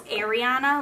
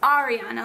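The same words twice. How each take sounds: First: The first syllable sounds like 'air'. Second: The first syllable sounds like 'ar'. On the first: This is how most people say the name. The speaker calls it wrong. "Normally everyone says Ariana, like A I R" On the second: This is how the owner says the name. The speaker calls it right. "It's Ariana, like A R I"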